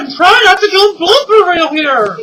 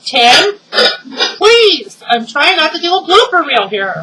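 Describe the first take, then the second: First: Loud, high, fed-up shout. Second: Exasperated plea. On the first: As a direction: yell it at him in frustration. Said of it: "that was my husband again". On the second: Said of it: "pleading with husband". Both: Real, not acted.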